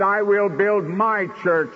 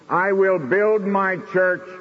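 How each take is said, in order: First: "my" leaned on, slowed and weighted; preacher quoting Jesus, leaning on "my"; stress on my. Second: Said in the usual way. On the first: Shown as a demonstration. Pastor to congregation, stressing "my" in the quote. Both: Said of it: "I think the emphasis is on my".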